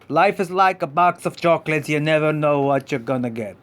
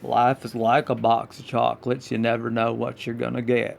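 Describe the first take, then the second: First: It is said in a normal voice. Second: It is a Forrest Gump impression.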